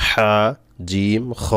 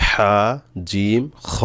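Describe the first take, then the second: No difference in how they are said.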